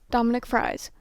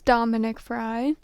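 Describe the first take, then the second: First: The surname ends with an S sound. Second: The surname ends without an S sound. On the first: The speaker calls it right. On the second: The speaker calls it wrong.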